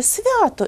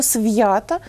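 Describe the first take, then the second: First: «свято» pitched up, with soft V and no glide; half-soft V. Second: «свята» with hard V, then a y-glide. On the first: Teacher shows what everyone says, soft V in «свято». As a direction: say «свято» higher, as s'vya-to. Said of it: "кожен скаже". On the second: Teacher rejects a form nobody says, hard V in «свята». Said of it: "і ніякого «свята» ніхто ніколи не вимовляє". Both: Shown as a demonstration.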